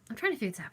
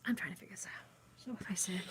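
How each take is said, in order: First: Said in the usual way. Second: Breathy repeated whisper. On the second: Shown as a demonstration. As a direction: say it again under your breath.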